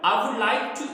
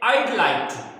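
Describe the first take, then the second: First: Would is pronounced as a full separate word. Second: Would is shortened into a single syllable, I'd. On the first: "हम इसको पूरा वुड like to नहीं बोलते हैं" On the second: "I वुड का shortcut वो क्या बोल रहे होते हैं? आइड"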